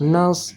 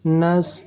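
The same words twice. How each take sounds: First: The s sound is heavy and emphatic. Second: The same.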